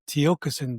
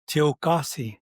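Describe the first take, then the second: First: The name is pronounced the English way. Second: The name is pronounced the Lakota way. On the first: The speaker calls it wrong. "I anglicized it" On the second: The speaker calls it right. "the true word is"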